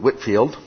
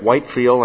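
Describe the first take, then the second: First: The first syllable sounds like 'whit'. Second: The first syllable sounds like 'white'. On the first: This is how many people actually say it. "I hear a lot of people pronounce it Whitfield" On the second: This is how the spelling suggests it. "now it looks like Whitefield"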